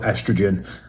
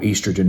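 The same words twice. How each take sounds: First: It is said with an American pronunciation. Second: It is said with a British pronunciation.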